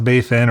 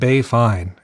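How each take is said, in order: First: The second word sounds like 'fin'. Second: The second word sounds like 'fine'. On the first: The speaker calls it right. "I'm pretty sure it's pronounced Bay Fin" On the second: The speaker calls it wrong. "I'm probably going to mispronounce this"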